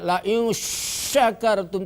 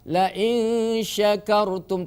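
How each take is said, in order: First: The sh sound is heavy and strongly spread. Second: The sh sound is short and light. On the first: The speaker calls it wrong. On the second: The speaker calls it right.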